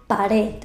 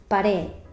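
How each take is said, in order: Both takes have the same delivery.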